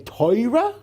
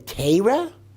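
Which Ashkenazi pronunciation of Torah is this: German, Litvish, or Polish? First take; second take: Polish; Litvish. First: It is said with Polish Ashkenazi pronunciation. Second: It is said with Litvish Ashkenazi pronunciation. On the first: "which is the Polish pronunciation" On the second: "which is the Litvischer pronunciation"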